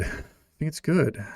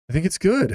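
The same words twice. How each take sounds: First: Said in the usual way. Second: Emphatic declaration. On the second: Real, not acted. Insisting anger is good.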